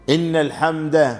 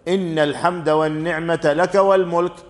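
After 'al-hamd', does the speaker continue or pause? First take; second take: pauses; continues. First: The phrase stops with a pause after 'al-hamd'. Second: The phrase runs on without a pause after 'al-hamd'. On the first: The speaker calls it wrong. "هذا في اللغة العربية وقف غير صحيح" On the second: The speaker calls it right. "هكذا مباشرة"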